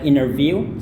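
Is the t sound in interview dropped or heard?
dropped. The t sound after the n is dropped. "orang Amerika biasanya T-nya nggak dibunyikan"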